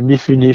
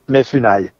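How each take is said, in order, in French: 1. Le deuxième mot se termine par un son 'ee'. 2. Le deuxième mot se termine par un son 'ai'. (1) "je crois qu'on prononce en grec moderne" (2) "je le prononce mal"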